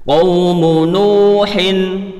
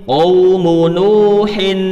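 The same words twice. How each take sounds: The two takes are said the same way.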